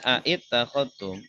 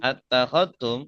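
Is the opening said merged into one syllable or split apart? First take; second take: split; merged. First: The opening is split with an extra vowel. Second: The opening sounds are merged into one syllable. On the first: This is the underlying original form. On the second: This is the actual form of the word. "I-nya dibuang ya, hamzahnya dilebur jadi satu"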